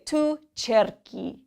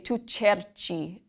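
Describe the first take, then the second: First: The verb has a hard k sound. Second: The verb has a soft ch sound. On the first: The speaker calls it right. "to keep the hard k sound" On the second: The speaker calls it wrong. "If the H wasn't there, you would say tu cerci, and it just sounds odd"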